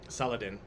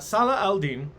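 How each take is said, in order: First: The name is blended into one Westernized word. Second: The name is said as separate Arabic-style parts. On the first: "Saladin is how we pronounce it now" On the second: "Salah al-Din is another pronunciation"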